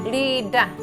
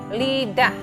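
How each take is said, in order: The two takes are said the same way.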